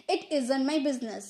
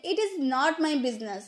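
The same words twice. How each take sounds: First: "isn't" run together as IZ-unt; contracted isn't. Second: Said in the usual way. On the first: Shown as a demonstration. Teacher showing learners the contraction, joined-up "isn't". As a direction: join is and not into "isn't". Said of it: "contraction का use करके बोलेंगे". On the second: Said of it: "contraction की बात नहीं करते तो".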